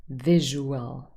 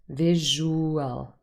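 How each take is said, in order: First: The middle vowels are split across two syllables. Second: The middle vowels are split across two syllables.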